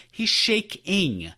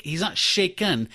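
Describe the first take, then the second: First: "shaking" very slow, split into SHAKE-ING; emphatic correction. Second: "shaken" drawn out as the word being rejected; contrasted word. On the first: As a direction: stretch "shaking" with weight on the ending ING. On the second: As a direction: stretch "shaken" to set up a correction. Corrects word to shaking. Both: Shown as a demonstration.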